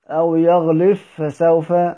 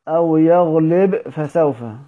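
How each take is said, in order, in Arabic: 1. يُدغم الحرف b تمامًا في f الذي يليه. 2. يُنطق الحرف b بوضوح قبل f. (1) "إدغام" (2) "إظهار"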